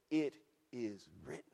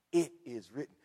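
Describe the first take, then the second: First: IT... IS... WRITTEN, low, soft and spaced out; deliberate emphasis. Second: IT IS WRITTEN, firm and low, run together; emphasis. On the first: Acted. Preacher quoting Jesus to Satan, measured IT IS WRITTEN. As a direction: set each word of IT IS WRITTEN apart, quietly. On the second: Real, not acted. Preacher repeating Jesus' answer, firm IT IS WRITTEN. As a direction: restate IT IS WRITTEN firmly at normal volume. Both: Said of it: "I wanna emphasize that".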